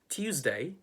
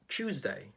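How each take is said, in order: First: It begins with t followed by a y sound. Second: It begins with a merged ch sound.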